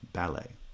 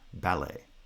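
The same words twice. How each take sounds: The two takes are said the same way.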